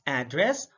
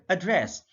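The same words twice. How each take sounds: First: ADdress, first syllable stressed; careful demo of ADdress. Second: AdDRESS, second syllable stressed; careful demo of adDRESS. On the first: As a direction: hit the AD in "address". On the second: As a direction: hit the DRESS in "address". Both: Shown as a demonstration. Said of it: "stress is the verbal emphasis used".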